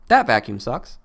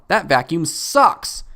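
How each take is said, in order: First: The word that carries the main stress. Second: The word sucks carries the main stress. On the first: This vacuum works, unlike another one. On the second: The vacuum works well or badly.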